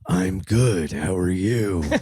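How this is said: It is said in a gruff Batman voice.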